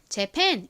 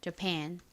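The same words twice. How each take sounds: First: Korean-style, with a full first vowel. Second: English-style, stress on second syllable, weak first vowel. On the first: "그냥 편하게 한국식으로 쓰는 것처럼 Japan 이렇게 발음해 주셔도 괜찮습니다" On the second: "뒤쪽에 강세가 있어요. ... 가장 앞에 A는 강세를 받지 않기 때문에 힘없는 어"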